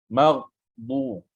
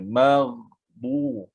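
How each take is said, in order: First: The gh sound is cut off abruptly. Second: The gh sound is held and flows on. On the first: The speaker calls it wrong. "jangan kita sekat terus... tak tepat" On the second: The speaker calls it right. "alirkan dia"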